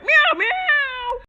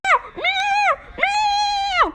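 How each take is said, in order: First: High crying meows; kitty meow. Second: Very high shouted meows; shouted kitty meows. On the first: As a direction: mew like a scared kitten. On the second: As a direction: yowl high like a panicked kitten. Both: Pretend. Kitty toy voiced.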